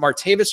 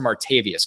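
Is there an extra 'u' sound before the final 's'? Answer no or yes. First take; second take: no; yes. First: The name ends in '-vis' with no extra vowel. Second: The name ends in '-vius' with an extra 'u' vowel. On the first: "It's Martavis" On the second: "the invented U"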